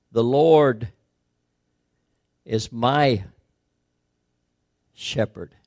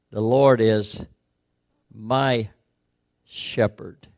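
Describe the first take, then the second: First: Slow, spaced phrasing with pauses; stress on my. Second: Spaced, falling phrasing; stress on my. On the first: Preacher quoting the psalm with weight on "my". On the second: Preacher repeating the psalm, dwelling on "my". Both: Shown as a demonstration. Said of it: "emphasized by the word "my".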